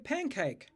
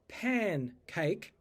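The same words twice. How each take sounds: First: The first nasal is an ng sound. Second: The first nasal is a plain n sound. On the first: "When you're talking quickly, you might hear people say pancake with a pang" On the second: "if you're speaking carefully, you might say pancake"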